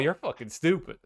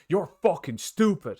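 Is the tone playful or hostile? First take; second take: playful; hostile. First: It is said in a light, teasing tone. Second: It is said in a harsh, insulting tone. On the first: It is friendly banter. "that's different because then it's like" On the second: It is a real put-down. "But if they're like"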